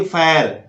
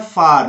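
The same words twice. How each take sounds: First: फैर said with an ai sound, the mistaken way; फैर as the error, ai vowel; wrong fair. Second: फार with a long open aa; फार said correctly, long aa; correct far. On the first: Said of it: "गलत हो जाएगा". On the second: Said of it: "इसको बोलना है फार". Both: Shown as a demonstration.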